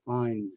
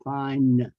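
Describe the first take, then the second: First: The final consonant is said very lightly. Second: The final consonant is exaggerated and strong. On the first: "very light hand sound at the end" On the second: "I will accentuate and exaggerate the end sounds"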